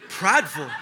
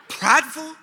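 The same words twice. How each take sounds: First: Low, falling echo of the accusation on "Prideful"; taken aback. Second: High, rising "Prideful" in mock outrage; incredulous. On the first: Retold or imitated. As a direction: repeat "Prideful" in low disbelief. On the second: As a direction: squeak up on "Prideful" as an offended question. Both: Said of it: "That's what I said".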